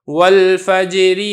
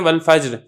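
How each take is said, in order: First: The word ends with an added i vowel. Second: The word ends on a bare r sound. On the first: The reader joins it to the next word. "मिला के पढ़ते हैं ... इसके ऊपर कसरा आ जाएगा" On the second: The reader stops after this word. "वक़्फ़ के अंदर ... दोनों साकिनों को पढ़ा जाता है"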